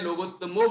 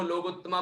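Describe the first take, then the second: First: "लोकोत्तमो" ending in a long o; correct ending. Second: "लोकोत्तमा" ending in a long aa; mistaken ending. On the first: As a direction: say "लोकोत्तमो" with final -mo. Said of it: "आखिरी में लोकोत्तमो बोलना है". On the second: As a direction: say "लोकोत्तमा" with final -maa. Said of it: "कुछ लोग लोकोत्तमा बोल देते हैं". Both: Shown as a demonstration.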